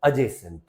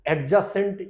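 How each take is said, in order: First: Adjacent as "a-jay-sn't", silent d; correct pronunciation. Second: Adjacent as "ad-ja-sent", d sounded; wrong pronunciation. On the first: Teacher giving the rule's result, correct pronunciation. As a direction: drop the d in adjacent. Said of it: "इसको बोल दिया जाएगा". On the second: Teacher showing the error to forget, wrong pronunciation. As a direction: say adjacent letter by letter with a hard d. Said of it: "डी का pronunciation एकदम भूल". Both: Shown as a demonstration.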